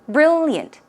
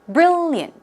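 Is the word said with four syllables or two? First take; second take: two; two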